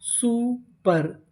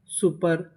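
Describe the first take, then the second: First: super very slowly, two separate syllables. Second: Said in the usual way. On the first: Shown as a demonstration. Teacher starts building a long word, super slowly in pieces. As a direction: stretch and split super. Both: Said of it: "तो meaning क्या बनी?".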